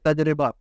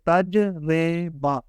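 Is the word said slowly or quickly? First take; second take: quickly; slowly. First: The word is said quickly and fluently. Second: The word is said slowly and carefully. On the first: "रवानी के साथ बोलने लगेंगे" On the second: "पहली दफ़ा सीखने के लिए आराम आराम से इसको सीखें"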